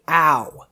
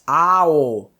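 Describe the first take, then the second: First: The vowels merge into one gliding sound. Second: Two separate vowels are said one after another. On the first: The speaker calls it wrong. "make sure you don't say ow, because ow doesn't exist in the Japanese language" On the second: The speaker calls it right. "It's ow"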